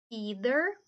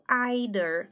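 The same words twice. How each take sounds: First: It is said with an American pronunciation. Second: It is said with a British pronunciation. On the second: "britânico"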